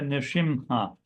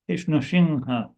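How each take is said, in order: First: The middle nasal sounds like a clear M. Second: The middle nasal sounds almost like an N. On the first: The speaker calls it wrong. "I hear a lot of devotees say" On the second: The speaker calls it right. "a nasal sound like an N"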